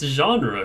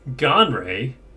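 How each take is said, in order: First: The word is pronounced the standard way. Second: The word is pronounced like 'gonray'. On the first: The speaker calls it right. "It's genre" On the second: The speaker calls it wrong. "Who the fuck pronounces it Gonray?"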